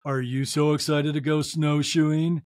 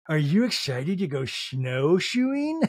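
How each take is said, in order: First: Low, dead-level robotic question; monotone. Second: Slow, drawn-out eager question with rising end; mock excited question. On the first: Retold or imitated. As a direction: imitate the most monotone voice ever. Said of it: "in the most monotone vo-, the most monotone voice ever". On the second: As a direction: imitate an eager mom, stretching the words. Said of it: "Meredith's like".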